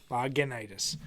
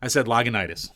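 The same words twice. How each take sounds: First: Lagunitis as lah-guh-NYE-tis, falling; quiet repeat of Lagunitis; repeating the name. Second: Lagunitis said as lah-guh-NYE-tis; correcting the name. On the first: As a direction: echo Lagunitis back carefully. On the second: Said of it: "Did you actually say Lagenitis?". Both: Shown as a demonstration.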